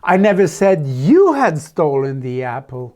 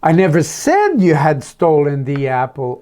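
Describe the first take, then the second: First: The word "you" carries the stress. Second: The word "said" carries the stress. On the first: A different person was accused. "No, I said it was Jennifer" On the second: It was written, not spoken. "Oh, maybe I just wrote a note about it"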